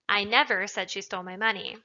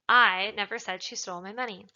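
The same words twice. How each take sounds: First: The word never carries the stress. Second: The word I carries the stress. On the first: It is a flat denial. "is just an emphatic denial of the fact" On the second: Someone else said it. "implies that somebody else said it"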